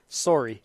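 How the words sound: It is said in a Canadian accent. "How do Canadians say it?"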